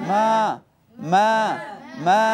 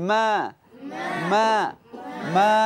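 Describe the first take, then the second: No difference in how they are said.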